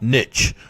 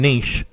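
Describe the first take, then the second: First: It is said the North American way. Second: It is said in the speaker's own accent. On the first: "not niche" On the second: "I'm saying niche"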